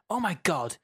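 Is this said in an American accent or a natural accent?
natural. It is said in a natural accent, fairly loud. "I'm just going to read it normally, but sort of shouty"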